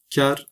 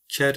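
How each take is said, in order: First: "Ker" with a soft K; soft-read K at the start of "Ker". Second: "Ker" with a hard K; hard-read K at the start of "Ker". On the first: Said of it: "yumuşak okursanız sağır olur". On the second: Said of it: "sert okursanız eşek olur". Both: Shown as a demonstration.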